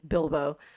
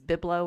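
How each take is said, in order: First: The name is said as 'Bil-bo'. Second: The name is said as 'Bib-lo'. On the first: The speaker calls it right. "getting the Hobbit's name right" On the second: The speaker calls it wrong. "I missaid Bilbo for ages"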